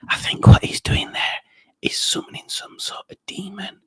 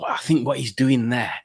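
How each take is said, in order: First: Conspiratorial stage whisper. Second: Said in the usual way. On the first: Pretend. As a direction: whisper it like a dark secret. Conspiratorial aside about Rob.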